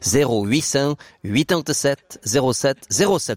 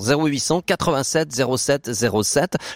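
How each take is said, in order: First: The number is said slowly, digit by digit. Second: The number is said at a fast pace.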